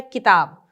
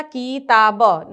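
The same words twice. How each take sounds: First: किताब said quickly as "ki-taab", short i; short quick vowel. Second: किताब drawn out as "keee-taa-ba"; wrong long vowel. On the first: Teacher correcting the spelling, किताब with a quick short "ki". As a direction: clip the i of किताब short, in one joined word. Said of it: "ई की मात्रा का उच्चारण जल्दी होगा". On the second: Teacher showing the wrong spelling, किताब said with a long "kee". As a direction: stretch the first vowel of किताब into a long ee, syllable by syllable. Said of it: "नहीं, ऐसे नहीं होता है". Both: Shown as a demonstration.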